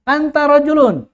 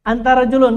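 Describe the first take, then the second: First: "Anta rojulun" read as anta then rojulun, both raised and loud; correct reading. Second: "Antara julun" read as antara plus julun, words split wrongly. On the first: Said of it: "langsung Atar baca anta rojulun". (bacaan benar "anta rojulun", lantang) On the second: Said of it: "Kenapa antara julun?". (bacaan salah "antara julun") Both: Shown as a demonstration.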